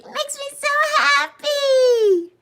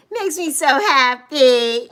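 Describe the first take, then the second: First: Very high, squeaky delight; happy squeak. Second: Said in the usual way. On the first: Real, not acted. Streamer happy Bev is here, squeaky delight.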